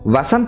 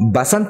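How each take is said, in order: First: The name begins with a v sound. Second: The name begins with a b sound. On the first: "వసంత్ అనడానికి బదులుగా" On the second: "బసంత్ అని పలుకుతూ ఉంటారు"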